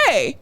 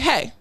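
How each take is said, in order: First: The greeting sounds warm and enthusiastic. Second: The greeting sounds flat and reserved.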